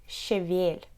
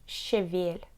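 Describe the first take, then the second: The two takes are said the same way.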